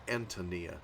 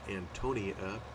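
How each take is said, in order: First: The stress is on the first syllable. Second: The stress is on the second syllable. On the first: The speaker calls it right. "I think the stress is on the A" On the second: The speaker calls it wrong. "I'd probably be tempted to pronounce it Antonia or something like that with a stress on the O"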